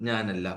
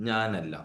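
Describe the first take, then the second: Both takes have the same delivery.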